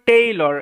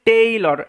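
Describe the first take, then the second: Both takes have the same delivery.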